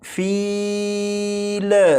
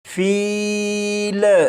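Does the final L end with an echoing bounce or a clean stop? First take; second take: bounce; bounce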